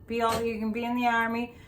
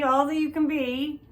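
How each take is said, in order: First: Quick, upbeat recruiting slogan read; army ad slogan. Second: Said in the usual way. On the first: Retold or imitated. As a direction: rattle it off like a TV army ad. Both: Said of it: "which is an army ad".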